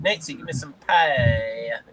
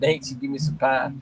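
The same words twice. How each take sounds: First: It is said in a put-on alien character voice. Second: It is said in the speaker's ordinary voice.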